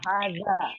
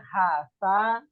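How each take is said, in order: First: The middle consonant is a z sound. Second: The middle consonant is not a z sound.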